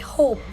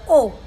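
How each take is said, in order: First: The word begins with a clear h sound. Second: The word begins without any h sound. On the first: "if you want to say hope" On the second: "they would say oh"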